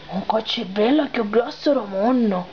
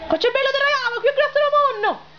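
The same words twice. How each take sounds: First: Low man's voice. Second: Put-on high, fast girlish voice with sicilian accent. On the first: Acted. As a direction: answer back in a low voice. Low voice repeats the promise. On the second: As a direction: squeal it out like a young girl. Girl's high pleading promise.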